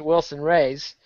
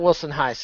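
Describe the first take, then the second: First: The surname begins with an English R sound. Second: The surname begins with an H sound.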